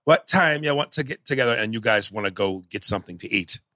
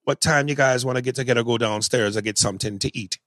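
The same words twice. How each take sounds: First: Put-on Jamaican accent that slips in and out; a Jamaican accent that keeps dropping; bad Jamaican accent. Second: Casual Jamaican accent. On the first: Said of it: "here was Denzel". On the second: Shown as a demonstration. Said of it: "I'm not the best Jamaican accent".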